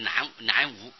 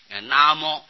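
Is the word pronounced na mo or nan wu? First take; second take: nan wu; na mo. First: It is pronounced as nan wu. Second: It is pronounced as na mo. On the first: The speaker calls it wrong. "所以这个不要念正音，不要念南无" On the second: The speaker calls it right.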